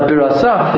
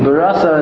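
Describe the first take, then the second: First: The word ends with an audible h sound. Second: The word ends without an audible h sound. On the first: You created it. The speaker calls it right. "the correct way here means you created it" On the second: She created. The speaker calls it wrong. "is like a female term for creating"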